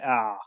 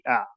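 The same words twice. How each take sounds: First: The sound is held for a long time. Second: The sound is brief with moderate force. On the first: The speaker calls it wrong. "really long" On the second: The speaker calls it right. "It has to be ah"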